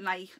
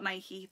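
First: The word ends without an ee vowel. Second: The word ends with an ee vowel. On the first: The speaker calls it right. "I call it Nike, There's no Y" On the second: The speaker calls it wrong. "not Nike"

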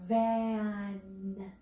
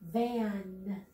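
First: The word is stretched out slowly, sound by sound. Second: The word is said quickly as one smooth unit. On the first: "blend it with me" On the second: "Say it fast"

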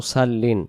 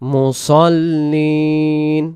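First: The s is a plain, light s sound. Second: The s is a heavy, emphatic s sound. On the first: The speaker calls it wrong. "সদ অক্ষরকে সিন বললে কি হয় মুসাল্লিন, অনেকেই পড়ি" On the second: The speaker calls it right. "আর আরবিতে সদ জবর স"

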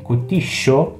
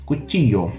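First: The ll has the Rioplatense sound. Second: The ll has a neutral i-like sound. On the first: "Em algumas regiões como Argentina e Uruguai, a gente tem o LL" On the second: "uma forma um pouco mais neutra com som de i"

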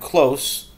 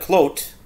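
First: The word ends with an s sound. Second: The word ends with a t sound. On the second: "But if you did the Hebrew, like klot"

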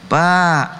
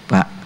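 First: The word is called out long and drawn out. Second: The word is called out short and quick. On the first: The person being called is far away. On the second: The person being called is close by. "dekat ya"

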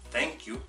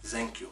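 First: Thank begins with a soft th sound. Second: Thank begins with a z sound. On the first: The speaker calls it right. "en vez de decir thank you" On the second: The speaker calls it wrong. "pronunciar la TH como una Z ... Eso suena feo también en inglés"

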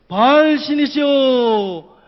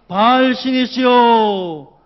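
The two takes are said the same way.

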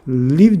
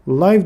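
First: The vowel sounds like short 'ih'. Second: The vowel sounds like 'eye'. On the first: It is the verb meaning to reside. "Live dediğinizde yaşamak fiili oluyor" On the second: It means alive or broadcast live. "Live dediğinizde canlı anlamına geliyor"

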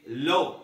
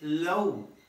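First: The vowel is a short, plain o sound. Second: The vowel is a full oh sound. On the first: The speaker calls it wrong. "You don't say the temperature is very low" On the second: The speaker calls it right. "it should be low"

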